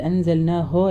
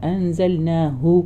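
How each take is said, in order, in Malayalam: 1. അവസാന അക്ഷരം 'o' സ്വരത്തിലാണ് അവസാനിക്കുന്നത്. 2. അവസാന അക്ഷരം 'u' സ്വരത്തിലാണ് അവസാനിക്കുന്നത്. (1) "ഹോ ആയിപ്പോരുത്. അൻസൽനാ ഹോ അല്ല" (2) "ചുണ്ട് റൗണ്ടായിട്ട് തന്നെ വരണം"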